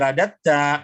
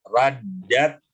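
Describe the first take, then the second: First: The middle consonant is short, single. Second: The middle consonant is held long, doubled. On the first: The speaker calls it wrong. "Jangan jadi radatta" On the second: The speaker calls it right. "jangan dibuang tasdidnya"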